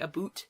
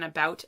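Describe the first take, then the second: First: The vowel is a stereotypical Canadian 'oo' sound. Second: The vowel is the usual American 'ow' sound. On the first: "they say aboot and oot" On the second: "rather than about"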